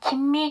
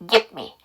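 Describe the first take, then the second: First: The words merge into one sound, gimme. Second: A small break separates give and me. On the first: The speaker calls it wrong. "안 그러면 김미 김미라는 컨" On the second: The speaker calls it right. "끊어주셔야 돼. 의도적으로"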